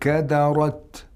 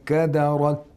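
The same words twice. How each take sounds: First: The final t is released with a strong puff. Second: The final t is not heard at all. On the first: "That's too much air coming out" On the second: "We didn't hear any ta"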